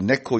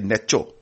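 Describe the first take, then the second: First: The name is said with a k sound. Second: The name is said with a ch sound. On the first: The speaker calls it right. "If it came to Neko" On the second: The speaker calls it wrong. "you never say Necho"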